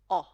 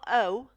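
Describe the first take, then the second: First: The vowel sounds like the vowel in pot. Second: The vowel is unlike the vowel in pot. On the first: The speaker calls it right. "a little like the letter O in the word pot" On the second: The speaker calls it wrong. "It's not O"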